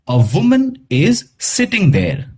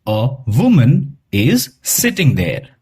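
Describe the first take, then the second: First: The article is said as a short 'uh'. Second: The same.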